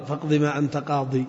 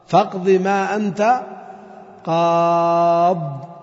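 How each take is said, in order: First: Soft "قاضي" ending on an i, the wrong form. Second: Slow chanted "قاض" stretched long; sung, Quranic recitation. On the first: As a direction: say "قاضي" with a final i, as the mistake. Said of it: "ما تقول قاضي". (نطق خاطئ "قاضي" بالياء بصوت منخفض) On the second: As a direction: chant it like tajweed, drawing out the last word. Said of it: "إذا وقفت". (sung, ترتيل بطيء مع مد "قاض") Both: Shown as a demonstration.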